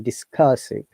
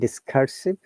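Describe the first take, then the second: First: The R sound is not pronounced. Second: The R sound is clearly pronounced. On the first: The speaker calls it right. "in British I P we do not pronounce R, so it should be discursive" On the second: The speaker calls it wrong. "rather than discursive"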